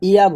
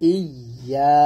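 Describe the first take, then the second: First: The y sound is short and single. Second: The y sound is held and doubled. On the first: The speaker calls it wrong. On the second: The speaker calls it right.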